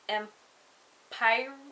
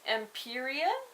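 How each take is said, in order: First: The name ends with an 'ire' sound. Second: The name ends with an 'ia' sound. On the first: The speaker calls it wrong. "no, that sounds wrong" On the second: The speaker calls it right. "Empiria sounds a lot better"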